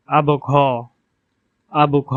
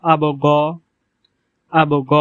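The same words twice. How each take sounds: First: আবু ঘ with breathy aspirated ঘ; Gulf dialect ghain. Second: আবু গ with a plain throaty g sound; standard Arabic ghain. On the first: Teacher demonstrating dialect Arabic আবু ঘ. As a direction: say আবু ঘ with the gh like Bangla ঘ. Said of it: "আঞ্চলিক আরবি ভাষায় উচ্চারণ হবে". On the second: Teacher demonstrating standard Arabic আবু গ. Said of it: "বিশুদ্ধ আরবি ভাষায় উচ্চারণ হবে". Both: Shown as a demonstration.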